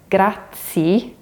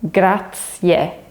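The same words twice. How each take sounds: First: The ending is a short 'ee' sound. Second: The ending sounds like 'yeah'. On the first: The speaker calls it wrong. "it sounds like grazie, but that's actually a mistake" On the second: The speaker calls it right. "The last part of the word sounds more like yeah"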